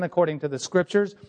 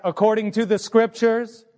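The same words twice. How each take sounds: First: Said in the usual way. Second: According to the scriptures said higher and louder, each word leaned on; emphasized. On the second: Shown as a demonstration. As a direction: hit According to the scriptures hard for the congregation. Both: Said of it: "Can I emphasize that?".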